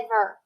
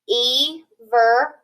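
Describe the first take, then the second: First: The first vowel is said short. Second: The first vowel is said long. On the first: The speaker calls it right. "We have to shorten that vowel" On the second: The speaker calls it wrong. "We know that doesn't sound right"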